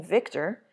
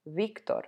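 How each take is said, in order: First: Victor with an English V, "VIK-ter"; English pronunciation. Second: Victor as "BEEK-tor", soft B-V onset; Spanish pronunciation. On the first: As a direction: say Victor the American way. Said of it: "is pronounced Victor in English". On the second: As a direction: say Victor the Spanish way, with pure vowels. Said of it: "whereas in Spanish, it's pronounced Victor". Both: Shown as a demonstration.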